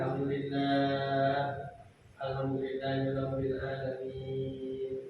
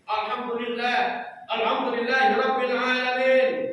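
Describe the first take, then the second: First: It is said in a soft, weak voice. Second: It is said in a loud, firm voice.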